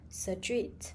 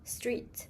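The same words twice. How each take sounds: First: An extra vowel breaks up the opening cluster. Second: The opening cluster has no extra vowel. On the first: "insert extra vowels, saying street" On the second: "instead of street"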